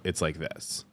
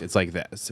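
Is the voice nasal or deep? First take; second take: deep; nasal. First: It is spoken relaxed and deeper. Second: It is spoken high and nasally.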